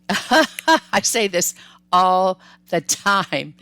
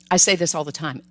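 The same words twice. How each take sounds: First: Laughing through it, slow and loud; amused at her own habit. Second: Said in the usual way. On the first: Real, not acted. Repeating her catchphrase to viewers while laughing.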